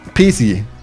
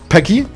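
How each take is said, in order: First: The middle consonant is a TS sound. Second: The middle consonant is a K sound. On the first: The speaker calls it wrong. "oder C" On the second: The speaker calls it right. "Entweder K"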